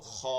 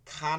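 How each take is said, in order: First: "খ" thick, with a rounded aw; "খ" thickened towards aw, in a lower pitch; heavy sound. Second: "খা" with a thin open aa; "খা" unrounded, not thickened; wrong thin vowel. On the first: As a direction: say "খ" full and heavy. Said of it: "মোটা হয়ে যাচ্ছে কিন্তু". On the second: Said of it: "খা না কিন্তু". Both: Shown as a demonstration.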